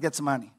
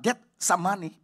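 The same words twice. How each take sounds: First: The word is said smoothly at normal speed. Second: The word is said slowly, split into parts. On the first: The speaker calls it right. "ngomongnya mesti benar Getsemani" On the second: The speaker calls it wrong. "Jangan pelan-pelan, Getsemani beda lagi"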